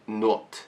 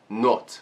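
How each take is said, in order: First: The vowel sounds like a rounded 'o'. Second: The vowel sounds like a rounded 'o'.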